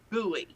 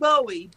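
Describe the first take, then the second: First: The first part sounds like 'boo'. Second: The first part rhymes with 'go'. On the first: This is how locals actually say it. The speaker calls it right. "but it's buoy" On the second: This is how the spelling suggests it. The speaker calls it wrong. "It's it's it's spelled Bowie"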